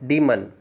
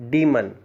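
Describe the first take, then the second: First: The first vowel is a long ee sound. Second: The same.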